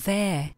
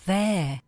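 No difference in how they are said.

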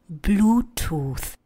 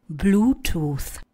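The two takes are said the same way.

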